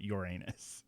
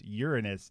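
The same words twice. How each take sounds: First: The word sounds like 'your anus'. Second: The word does not sound like 'your anus'. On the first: The speaker calls it wrong. "not Uranus" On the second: The speaker calls it right. "The planet is pronounced Uranus"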